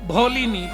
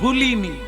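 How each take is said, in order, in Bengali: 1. প্রথম স্বরধ্বনিটি 'o'-এর মতো উচ্চারিত হয়। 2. প্রথম স্বরধ্বনিটি 'u'-এর মতো উচ্চারিত হয়। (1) "আমার ঠিক উচ্চারণ হয়নি" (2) "আমি ওটাকে উল্টো করে বলি"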